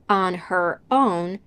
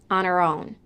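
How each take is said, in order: First: The H at the start of 'her' is pronounced. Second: The H at the start of 'her' is dropped. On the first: "she also doesn't say" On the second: "the H in her"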